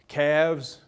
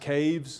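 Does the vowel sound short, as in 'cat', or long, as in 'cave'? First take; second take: short; long. First: The vowel is short, as in 'cat'. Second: The vowel is long, as in 'cave'. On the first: "So in a word like calves" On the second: "it would be pronounced caves"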